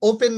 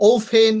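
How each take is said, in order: First: Said in the usual way. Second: ওপেন as "ou-phen"; ওপেন slow, with a puff of air on the P; aspirated P. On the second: Shown as a demonstration. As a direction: stretch ওপেন, breathy release on P. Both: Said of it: "ওপেন না কিন্তু".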